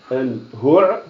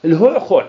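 First: الهعخع squeezed from the throat, ending on a rise; الهعخع held back in the throat; guttural demo. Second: الهعخع punched out louder with throat letters, falling; الهعخع said loud and rough; loud guttural demo. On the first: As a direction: choke out الهعخع with a rising end. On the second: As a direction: bark out الهعخع to show its heaviness. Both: Shown as a demonstration. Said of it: "الله يسترنا الكلمة هذه".

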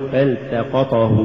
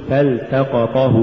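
First: فالتقطه with short vowels cut; snatched vowels. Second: فالتقطه with each short vowel complete; full vowels. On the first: Teacher shows crooked reading, فالتقطه uneven. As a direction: slur the syllables of فالتقطه. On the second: Teacher models correct recitation, فالتقطه evenly voweled. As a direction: give each syllable of فالتقطه equal room. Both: Shown as a demonstration. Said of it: "ولا تقل".

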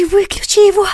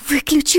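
First: Much higher, louder, terrified; panicked cry. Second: Alarmed, rising higher; urgent, scared first call; frightened plea. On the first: (панический вскрик) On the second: (испуганная просьба) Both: A narrator's reading. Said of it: "испуганно прошептала Саша".

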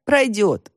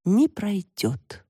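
First: Said in the usual way. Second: Very slow, higher, doomed delivery; drawn-out theatrical despair; tragic tone. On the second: A narrator's reading. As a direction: declare it like a tragic heroine. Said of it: "трагическим тоном произнесла Таська".

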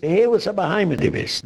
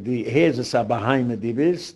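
First: Higher-pitched opening on the mimicked insult. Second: Said in the usual way. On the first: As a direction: quote the insult back, pitched up then dropping off. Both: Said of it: "Du suchst das so".

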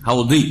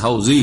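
First: "হাউদি" with a heavy d sound; Arabic dad. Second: "হাউজি" with a z sound; Bangla-style z. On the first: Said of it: "আরবি তো দদ". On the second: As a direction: say "হাউজি" with a buzzing z in place of the Arabic dad. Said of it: "দুই রকম বলতে হচ্ছে". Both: Shown as a demonstration.

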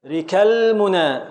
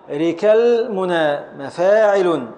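First: Said in the usual way. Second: Slow scansion. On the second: Shown as a demonstration.

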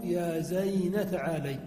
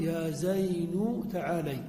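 First: زين ending on an a vowel: zayna; nun with fatha. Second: زين ending on a u vowel: zaynu; nun with damma. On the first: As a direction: say زين as zayna before تعالي. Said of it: "وإبقاء ما قبله على حاله". (نطق زين بفتح النون: يا زينَ) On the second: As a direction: say زين as zaynu before تعالي. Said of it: "نقول". (نطق زين بضم النون: يا زينُ) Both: Shown as a demonstration.

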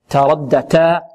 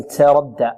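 First: "تردى" with a pure t, no s in it; clean taa. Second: "تردى" starting with a hissy "ts"; taa tinged with seen. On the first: Teacher models for students a clean taa in "تردى". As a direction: keep the t of "تردى" free of hiss. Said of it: "بل نقول تاء". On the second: Teacher warns students, faulty "تردى" with ts onset. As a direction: let an s leak into the t of "تردى". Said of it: "التاء لا نشربها رائحة السين". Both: Shown as a demonstration.

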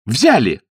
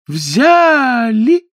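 First: Short, falling call; brisk cue. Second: Sung, high, loud, long-held call; smooth sung cue. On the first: A narrator's reading. Niece previewing her signal, short spoken call. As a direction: say the command crisply, falling. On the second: Shown as a demonstration. Niece leading the callers, drawn-out high singing. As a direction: sing the word out smoothly, rising high. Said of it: "Мягко, плавно, нежно".

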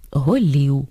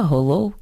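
First: "голів" with i in the last syllable; slow, careful Ukrainian "голів"; standard vowel alternation. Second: "голов" keeping o in the last syllable; no vowel alternation. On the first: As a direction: say "голів" with ee, not o. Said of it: "замість корів голів". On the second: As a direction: say "голов" with o, not Ukrainian i. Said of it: "із відсутністю чергування о і або е і". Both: Shown as a demonstration.

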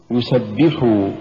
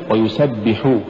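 First: يسبحوا as one word, push on بِّ; correct recitation. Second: ويسبحوا with the final حو pushed; misplaced push on حو in ويسبحوا; wrong stress. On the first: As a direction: stress the doubled ب in يسبحوا. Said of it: "قل". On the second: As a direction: punch the ending of ويسبحوا. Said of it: "ولا تقل". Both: Shown as a demonstration.

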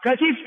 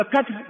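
First: كتف with kasra on the ta; original vowelled form. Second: كتف with sukun on the ta; silenced middle vowel. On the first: Teacher giving the original form, "katif". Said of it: "هذا هو الأصل". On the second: Teacher showing the sukun form, "katf". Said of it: "بالتسكين". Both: Shown as a demonstration.

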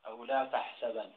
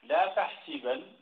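First: Tahsabanna with a on sin; fatha on sin in تحسبن. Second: Slow tahsibanna with i on sin; kasra on sin in تحسبن. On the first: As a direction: offer تحسَبن, the a-vowel variant. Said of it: "يحسب بالفتح على القياس". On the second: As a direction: demonstrate تحسِبن with a kasra. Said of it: "ويحسب بالكسر". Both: Shown as a demonstration.

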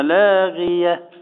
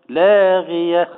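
First: Said in the usual way. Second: لاغية stretched slowly with a lightly heavy غي; drawn-out recitation. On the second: Shown as a demonstration. Sheikh models لاغية for the class, slow recitation. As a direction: chant لاغية slowly and lean on the غ. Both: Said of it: "ما احنا نقول هنا لاغية".

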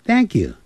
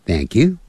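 First: "Thank you" high on "Thank", falling on "you". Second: "Thank you" starting low, rising on "you". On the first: Teacher shows both ways are fine, falling "Thank you". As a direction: start "Thank you" high, then drop. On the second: Teacher shows both ways are fine, rising "Thank you". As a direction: lift "you" at the end of "Thank you". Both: Shown as a demonstration. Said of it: "这样发音都可以".

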